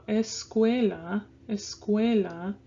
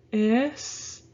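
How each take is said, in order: First: "escuela" stressed on the middle syllable cue; whole-word "escuela", es-CUE-la. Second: "escuela" in separate beats, es, cue, la; syllable by syllable. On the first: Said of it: "it's stressed a little more". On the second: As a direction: break "escuela" into es-cue-la with long pauses. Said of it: "leave those two together and go". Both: Shown as a demonstration.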